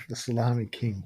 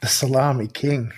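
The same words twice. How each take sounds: First: The salami king, repeated much softer, almost to himself; quiet musing echo. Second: Said in the usual way. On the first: Real, not acted. Guest echoing the host's nickname, softly musing. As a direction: let it fade out as he savours the title. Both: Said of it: "as I said, the salami king".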